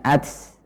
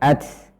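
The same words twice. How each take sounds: First: The final t ends with a hissing s-like breath. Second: The final t ends with a hissing s-like breath.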